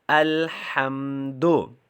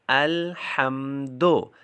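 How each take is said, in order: No difference in how they are said.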